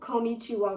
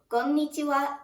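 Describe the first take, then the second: First: It is said with an English accent. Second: It is said with a Japanese accent.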